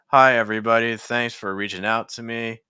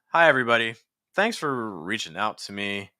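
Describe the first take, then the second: First: The pitch stays on the same few notes. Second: The pitch moves higher and lower between phrases. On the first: The speaker calls it wrong. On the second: The speaker calls it right.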